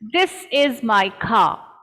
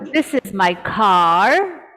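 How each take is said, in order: First: The final R sound is silent. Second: The final R sound is pronounced. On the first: The speaker calls it right. "The R is not pronounced" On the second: The speaker calls it wrong. "we don't say"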